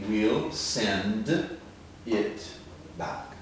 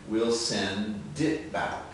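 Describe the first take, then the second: First: The phrase is said slowly. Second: The phrase is said quickly.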